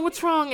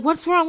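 First: Surprised repeat. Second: High, louder startled ask; startled roommates asking what happened; surprised question. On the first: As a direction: ask again, gentler. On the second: Roommates startled by Cassie bursting in, high. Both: Retold or imitated. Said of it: "they're a little surprised".

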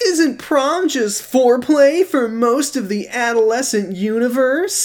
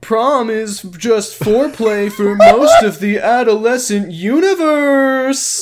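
First: High, slow mock teen dude; Kyle impression. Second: High, slow goofy dude voice with a laugh; Kyle doing Josh. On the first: [name] performing Kyle imitating Josh, high goofy voice. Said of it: "Take it away, [name]". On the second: [name] redoing the impression on request, high goofy voice. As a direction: stretch out universe in a silly high voice. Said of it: "now I'll do the voice". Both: Shown as a demonstration.

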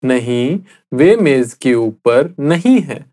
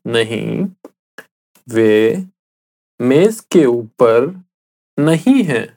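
First: Said in the usual way. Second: Slow, with pauses between the words; slowly, word by word. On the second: Shown as a demonstration. Teacher repeating the answer for the listener, slow and word by word. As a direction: lay each word out for a learner to copy. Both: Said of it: "I'll say it again slowly".

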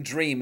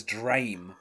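First: Said in the usual way. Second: "drame", dream with an ay vowel; altered vowel. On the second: Shown as a demonstration. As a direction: say "drame" to rhyme with name, a little lower. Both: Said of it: "Prince is pronouncing dream as".

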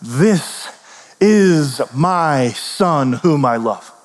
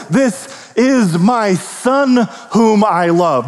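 First: Very slow, solemn divine declaration; voice from the cloud. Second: Very slow, solemn heavenly voice; voice from the cloud. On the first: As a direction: draw out every word like God speaking. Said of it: "a voice came from the cloud and said". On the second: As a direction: stretch each word as a proclamation from above. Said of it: "the voice from the cloud say". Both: Acted.

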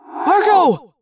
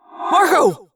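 First: Loud shouted name; yell. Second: Mild yell. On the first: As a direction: yell his name as he falls. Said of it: "Tobias yelled". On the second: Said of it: "Jake yelled". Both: Acted.

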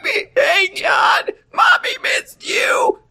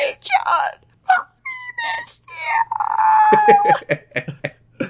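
First: Very high strained screech; screechy voice. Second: Tiny high squeak, broken by pauses; soft screechy voice. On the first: Mother greets little son, in an over-the-top screechy voice. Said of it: "screechy voice". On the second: Mother greets little son on request, soft and screechy. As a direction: squeeze out a quiet, halting screech. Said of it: "Do a soft, screechy voice". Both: Acted.

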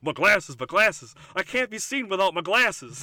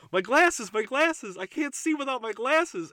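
First: Loud, vain Johnny Bravo boast. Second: High, loud panicked Velma cry; high Velma whine. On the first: Johnny Bravo fretting about being seen, loud. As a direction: belt it out like a vain hunk. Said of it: "he goes". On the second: Velma squealing over her lost glasses, high and loud. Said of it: "Velma go". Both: Retold or imitated.

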